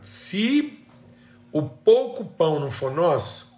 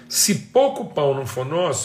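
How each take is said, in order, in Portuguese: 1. A frase é falada devagar e de forma deliberada. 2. A frase é falada em velocidade normal.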